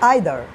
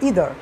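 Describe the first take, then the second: First: The word begins with an 'eye' sound. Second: The word begins with an 'ee' sound. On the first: "আমেরিকানরা উচ্চারণ করে তখন হবে আইদার" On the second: "ব্রিটিশরা উচ্চারণ করে তখন বলে তারা ইদার"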